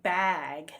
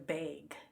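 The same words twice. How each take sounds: First: Bag is said with a standard vowel. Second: Bag is said with a Michigan vowel.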